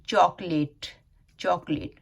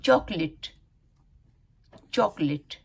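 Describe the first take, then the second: First: चॉकलेट with a long "late" ending; full e in the last syllable of चॉकलेट; common local pronunciation. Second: चॉकलेट with a short "lit" ending; correct pronunciation. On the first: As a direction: say चॉकलेट as "chok-layt". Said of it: "हम लोग बोलते हैं". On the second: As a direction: model चॉकलेट firmly as "CHOK-lit". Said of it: "उसका सही pronunciation है". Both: Shown as a demonstration.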